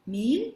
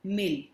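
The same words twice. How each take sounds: First: मील with a drawn-out long "ee"; long vowel in मील. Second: मिल with a short "i"; short vowel in मिल. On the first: Teacher contrasts two words for children, मील said slowly with long "ee". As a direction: stretch the vowel of मील: "meel". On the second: Teacher contrasts two words for children, मिल said with short "i". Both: Shown as a demonstration. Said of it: "मात्रा अथवा व्यंजन में थोड़ा सा अंतर होता है".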